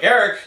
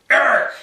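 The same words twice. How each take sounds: First: Friendly call. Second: Mock angry yell of the name, much higher and louder; angry dad call. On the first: Retold or imitated. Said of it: "I heard my name and it was like". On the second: Dad calling his son in trouble, angry yell. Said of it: "If I heard".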